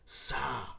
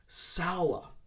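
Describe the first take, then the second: First: The vowel is a long 'ah' sound. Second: The vowel is an 'ow' sound. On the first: The speaker calls it wrong. "It's more of an elongated A" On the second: The speaker calls it right. "we need to use the ow sound"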